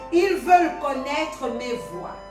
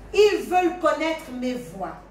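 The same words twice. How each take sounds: The two takes are said the same way.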